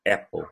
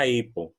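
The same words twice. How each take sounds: First: "Apple" said AP-ol, open A; short open first vowel in "Apple"; correct pronunciation. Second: "Apple" said EY-po; "Apple" with gliding "ay" at the start; wrong pronunciation. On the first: Teacher correcting the phone brand's name, open-vowel "Apple". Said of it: "ele é da". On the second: Teacher rejecting it for the phone brand, EY-po "Apple". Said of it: "ele não é da Apple". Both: Shown as a demonstration.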